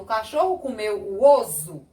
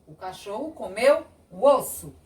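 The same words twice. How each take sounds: First: "osso" with a voiced z; pronúncia com Z. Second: "osso" with an unvoiced s; pronúncia com S. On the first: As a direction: say "osso" as o-zu in the sentence. ("osso" com som de Z) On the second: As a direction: say "osso" as o-ssu in the sentence. ("osso" com som de S) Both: Shown as a demonstration. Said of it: "Eu não falo".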